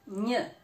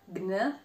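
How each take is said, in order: First: The g and n merge into one single sound. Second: The g and n are heard as separate sounds. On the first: The speaker calls it right. "but gn. So they create a new sound" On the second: The speaker calls it wrong. "not gn"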